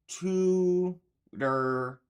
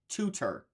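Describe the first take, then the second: First: The middle T sounds like a soft D. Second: The middle T is a clear, crisp T. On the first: The speaker calls it right. "that T sounds like a D" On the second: The speaker calls it wrong. "It doesn't so- sound like tutor"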